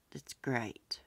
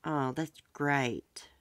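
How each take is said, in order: First: Whispered to herself; soft whisper. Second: Said in the usual way. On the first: Real, not acted. Quietly awed by the fundraiser total, whispering. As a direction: breathe it out as a whisper, barely voiced.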